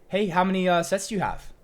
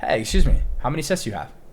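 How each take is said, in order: First: It sounds nervous and needy, with hesitation. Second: It sounds calm, relaxed and self-assured.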